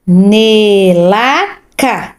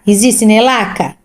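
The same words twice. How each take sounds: First: "Nelaca" read very slowly syllable by syllable. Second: Said in the usual way. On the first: Shown as a demonstration. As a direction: sound out "Nelaca" for a child. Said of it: "do fim aqui". (lendo devagar por sílabas)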